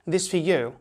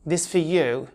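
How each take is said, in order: First: The words run together, with 'is' merged away. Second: The same.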